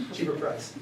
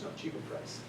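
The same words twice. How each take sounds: First: Said in the usual way. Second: A flat, breathy mimic of the pushy factory brother; mock haggler's whisper. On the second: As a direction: whisper the one English phrase he knows, imitating him. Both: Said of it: "would just look at me and say".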